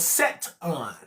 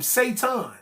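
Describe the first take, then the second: First: The name is said as 'Set-on'. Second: The name is said as modern 'Satan'. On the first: This is the name as it was originally said. "The original pronunciation of the name Satan was Set-on" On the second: This is the name as it is said today. "We say S A T A N"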